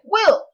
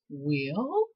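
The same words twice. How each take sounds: First: The word is said with loud, excited energy. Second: The voice rises on the word like a question. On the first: "Now it's excited" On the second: "Remember the last time your voice rose"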